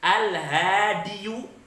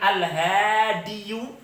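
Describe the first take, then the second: Both takes have the same delivery.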